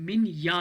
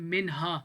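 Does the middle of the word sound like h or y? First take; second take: y; h. First: The middle consonant is a gliding y sound. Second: The middle consonant is a breathy h sound. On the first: The speaker calls it right. "ये जो एच है ये वाई की आवाज निकालता है" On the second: The speaker calls it wrong. "This is not मिन हा"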